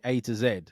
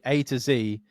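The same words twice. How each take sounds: First: The last letter is said the British way, zed. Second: The last letter is said the American way, zee.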